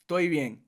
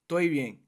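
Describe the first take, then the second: Both takes have the same delivery.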